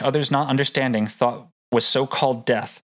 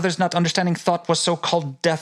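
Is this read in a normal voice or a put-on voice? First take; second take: normal; put-on. First: It is read in an ordinary speaking voice. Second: It is read in an affected, put-on voice.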